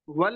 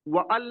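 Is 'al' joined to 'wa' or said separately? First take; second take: joined; separate. First: The hamza is dropped, with 'wa' and 'al' joined. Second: The hamza is sounded, with 'wa' and 'al' separate. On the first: The speaker calls it right. "क्या कह रहे हैं direct" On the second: The speaker calls it wrong. "व अल नहीं कह रहे हम"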